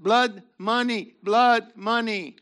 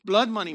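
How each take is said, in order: First: "blood money" drawn out, "blood" hit hard each time; slow stressed blood money. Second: Said in the usual way. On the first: Shown as a demonstration. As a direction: lean heavily on "blood" in "blood money".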